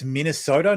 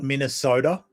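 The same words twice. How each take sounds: First: The middle consonant is a clear t sound. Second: The middle consonant is a soft d sound. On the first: The speaker calls it right. "I'm pretty sure there's a T in Minnesota" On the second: The speaker calls it wrong. "It's not mini soda"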